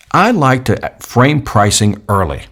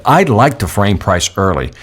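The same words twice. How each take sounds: First: Slow, weighted statement; slow emphatic. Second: Slow, deliberate repeat; slow emphatic repeat. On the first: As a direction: lay it down slowly. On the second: Trainer repeating his pricing rule slowly. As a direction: say it again slowly. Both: Shown as a demonstration. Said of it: "Listen to what I just said".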